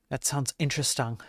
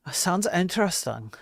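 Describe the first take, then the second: First: Said in the usual way. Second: A higher, mock-interested second reading; exaggerated take. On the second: Shown as a demonstration. Streamer replaying his reply to a viewer with more show. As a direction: repeat it higher, playing it up.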